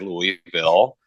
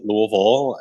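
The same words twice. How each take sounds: First: It is the pronunciation most outsiders use. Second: It is the pronunciation people from there use. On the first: The speaker is not from the city. "Most most most of the world who knows about the town will say Louisville" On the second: The speaker is from the city. "those from there call it Louisville"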